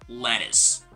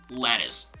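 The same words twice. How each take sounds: No difference in how they are said.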